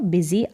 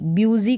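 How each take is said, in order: First: The first syllable is said as 'bi'. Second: The first syllable is said as 'byoo'. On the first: The speaker calls it right. "इसका उच्चारण बिजी" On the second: The speaker calls it wrong. "ब्यूजी करके नहीं होगा"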